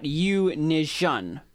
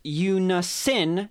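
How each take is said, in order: First: "Unision" with a zh sound in the middle; slow, over-separated "Unision", rhyming with vision; mispronunciation demo. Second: "Unisin" with an s sound, drawn out slowly; slow, careful "Unisin", hissed s in the middle; correct pronunciation. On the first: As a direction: draw out "Unision" very slowly, the s turned to zh. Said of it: "as I just did". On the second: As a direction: stretch out "Unisin" with a clean s, not sh. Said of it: "is pronounced Unisin, not Unision". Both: Shown as a demonstration.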